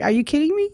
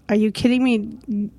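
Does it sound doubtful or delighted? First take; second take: delighted; doubtful. First: It sounds delighted and excited. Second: It sounds doubtful and unsure.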